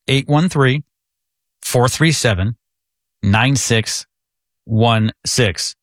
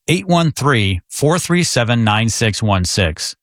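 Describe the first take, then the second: First: The number is read more slowly. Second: The number is read at a normal pace.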